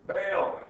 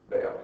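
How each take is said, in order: First: Bail said higher and louder, hit hard; emphatic repeat. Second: Said in the usual way. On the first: Shown as a demonstration. Professor to students, repeating advice with emphasis. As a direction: punch the word Bail as the punchline.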